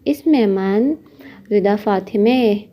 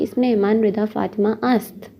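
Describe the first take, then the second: First: The name ends in an 'e' sound. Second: The name is followed by a separate 'ast'. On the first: This is the short spoken form. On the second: This is the full form.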